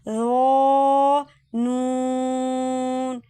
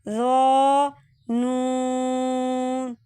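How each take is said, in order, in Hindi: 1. पहला हर्फ़ भारी और पूरा पढ़ा जाता है। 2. पहला हर्फ़ भारी और पूरा पढ़ा जाता है।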